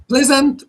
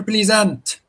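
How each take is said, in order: First: "pleasant" as PLEZ-unt; first-syllable stress. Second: "pleasant" as PLEE-zant; wrong long-e version. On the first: Teacher offering students two options, short-e "pleasant", PLEZ-unt. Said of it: "How do you pronounce it". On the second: Teacher offering students two options, long-e "pleasant", PLEE-zant. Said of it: "you will pronounce it pleasant". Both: Shown as a demonstration.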